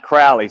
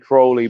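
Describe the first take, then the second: First: The first vowel sounds like an 'a'. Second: The first vowel does not sound like 'a'. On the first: The speaker calls it right. "It's actually pronounced Crowley, so it sounds like it's an A" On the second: The speaker calls it wrong. "I say Crowley, but I mispronounce it"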